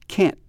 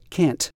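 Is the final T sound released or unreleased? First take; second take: unreleased; released. First: The final T is clipped and not released. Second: The final T is fully released. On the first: The speaker calls it right. "the T is not quite released" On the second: The speaker calls it wrong. "We don't typically say can't. I can't do that. That doesn't sound very natural"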